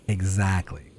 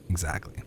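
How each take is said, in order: First: Said in the usual way. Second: Exactly, said low and soft under the breath; a quiet second Exactly; soft muttered echo. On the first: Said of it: "repeats exactly". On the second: Real, not acted. Gamer echoing chat, quietly. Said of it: "repeat softer".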